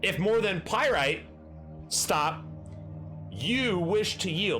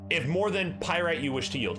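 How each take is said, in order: First: There is a clear pause after 'Pyrite'. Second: It flows without a pause after 'Pyrite'. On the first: It sounds like a command to stop. The speaker calls it wrong. "I was putting an inadvertent comma right here" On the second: It means if you want to make more than Fool's Gold. The speaker calls it right. "the way you are reading it makes complete sense"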